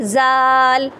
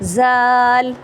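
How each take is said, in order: The two takes are said the same way.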